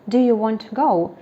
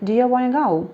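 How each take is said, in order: First: Each word is pronounced clearly and separately. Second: The words run together with dropped sounds.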